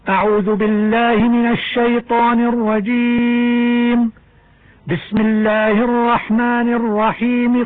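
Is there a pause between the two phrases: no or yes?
yes. There is a pause between the two phrases. "الوقف على الاستعاذة ثم وصل البسملة"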